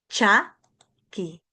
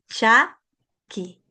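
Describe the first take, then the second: Both takes have the same delivery.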